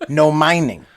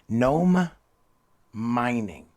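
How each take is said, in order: First: The phrase is said quickly, words run together. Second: The phrase is said slowly and distinctly.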